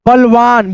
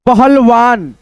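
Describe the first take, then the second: First: Said in the usual way. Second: पहलवान with every syllable, प-हल-वान; careful full reading of पहलवान; sounded out. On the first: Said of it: "उसके बाद से बोल देते हैं". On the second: Shown as a demonstration. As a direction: say पहलवान fully, with the ह clearly heard. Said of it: "दो भागों में डिवाइड करके".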